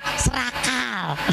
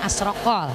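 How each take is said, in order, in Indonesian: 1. Tidak diawali vokal dan vokalnya 'a'. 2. Diawali vokal dan vokalnya 'o'. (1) "nggak pakai kop, pakai kap" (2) "orang dulu mah nyebutnya asrokol"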